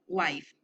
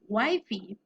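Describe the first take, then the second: First: The word ends without an extra vowel sound. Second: The word ends with an extra vowel sound. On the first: The speaker calls it right. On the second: The speaker calls it wrong.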